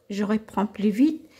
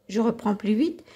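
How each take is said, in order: The two takes are said the same way.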